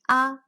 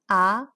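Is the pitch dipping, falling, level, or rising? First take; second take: level; rising. First: The pitch stays level and flat. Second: The pitch climbs upward toward the end. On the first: "The first tone, also known as flat tone" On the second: "the second tone, also known as rise tone"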